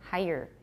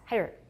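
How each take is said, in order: First: The word is said at a slower pace. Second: The word is said at a fast pace.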